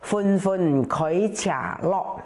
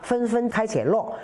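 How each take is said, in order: First: It is read in Hakka. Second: It is read in standard Mandarin.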